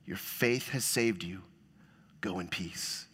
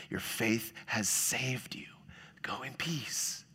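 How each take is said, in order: First: Soft blessing. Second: Slow whisper, much softer; whispered blessing. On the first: Jesus blessing, read softly. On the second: Preacher echoing Jesus's blessing to the woman in a slow whisper. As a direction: breathe it out gently. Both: Retold or imitated.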